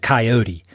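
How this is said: The word is said the North Carolina way. "I'm from North Carolina, ... and it was a coyote"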